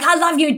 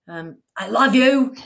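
First: The words are said in an angry tone. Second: The words are said in a calm tone.

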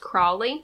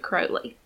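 First: The first syllable sounds like 'crawl'. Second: The first syllable sounds like 'crow'. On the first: The name suggests a crawling snake. "it starts off as Crowley because he's a snake" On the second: The name suggests a crow. "so he changed it to Crowley. Like a crow?"

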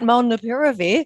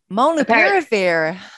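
First: The word is said in the speaker's usual accent. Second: The word is said in an American accent.

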